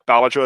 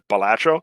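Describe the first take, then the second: First: The pitch starts high on the first syllable. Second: The pitch starts low, not on the first syllable. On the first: "like the intonation starts high" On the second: "instead of"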